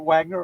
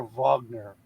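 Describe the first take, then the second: First: "Wagner" said WAG-ner, with an English W; "Wagner" starting with a W sound; English W pronunciation. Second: "Wagner" said VAHG-ner, with a V; "Wagner" starting with a V sound; German V pronunciation. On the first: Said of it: "Was it Wagner or Wagner?". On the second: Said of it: "It's Wagner, right?". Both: Shown as a demonstration.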